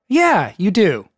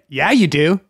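First: The voice falls at the end. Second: The voice rises at the end. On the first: The speaker simply agrees. "the normal or the non-bro speak would be like" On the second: The speaker agrees almost as if challenging. "But instead"

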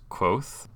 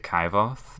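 First: The name is said with one syllable. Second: The name is said with two syllables. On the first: The speaker calls it right. "but I think it's Quoth" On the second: The speaker calls it wrong. "I always want to say Kyvoth"

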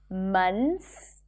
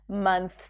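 First: The TH sound is dropped before the S. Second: The TH sound is pronounced before the S. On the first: "people tend to drop the TH here and just say months" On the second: "we think that we need to transition between the TH and the S"

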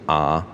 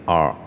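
First: The R is said without a curled tongue. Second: The R is said with a curled tongue. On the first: The speaker calls it wrong. "不是R" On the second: The speaker calls it right. "记得R 的特点是要有卷舌"

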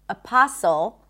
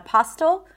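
First: No T sound is heard in the middle. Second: A T sound is heard in the middle. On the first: The speaker calls it right. "we do not pronounce the T there" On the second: The speaker calls it wrong. "Not apostle"

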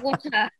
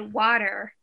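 First: The word is said in a non-American accent. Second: The word is said in an American accent. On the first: "And we say water" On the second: "Like you say water"

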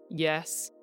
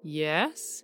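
First: The word is said on a low pitch. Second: The word is said with rising pitch. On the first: "a low" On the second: "a rising"

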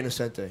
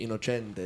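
First: The name is said with English-style pronunciation. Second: The name is said with Italian-style pronunciation. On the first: "I say Innocente" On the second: "If I was in Italy, it would be Innocente"

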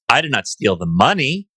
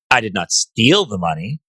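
First: The stress falls on the word 'money'. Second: The stress falls on the word 'steal'. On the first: The speaker took something other than the money. "Stole something else, but not the money" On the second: The speaker took the money some other way. "I might have borrowed it for a little while"

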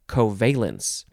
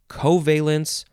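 First: The stress is on the second syllable. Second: The stress is on the first syllable. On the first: "You can emphasize the first or the second syllables" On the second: "You can emphasize the first or the second syllables"

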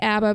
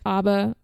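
First: It is said in an American Virginian way. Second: It is said in the original Swedish way.

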